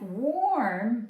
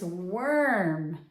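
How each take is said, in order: First: The vowel sounds like 'or'. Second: The vowel sounds like 'er'. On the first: The speaker calls it wrong. "It sounds like warm" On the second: The speaker calls it right. "but it's worm"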